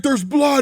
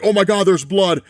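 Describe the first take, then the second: First: High-pitched mock panic; imitation shriek, pitched way up; mock scream. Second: Raised, mildly panicked imitation; half-hearted panicked exclamation; mock panicked cry. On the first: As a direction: squeal it like a panicking man. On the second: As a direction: act out a man alarmed at blood. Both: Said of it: "he just starts screaming".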